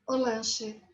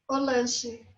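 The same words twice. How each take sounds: Both takes have the same delivery.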